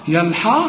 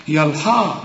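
No difference in how they are said.

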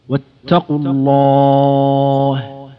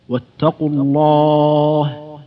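Both takes have the same delivery.

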